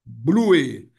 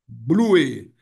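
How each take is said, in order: First: The word is said as two syllables. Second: The word is said as two syllables.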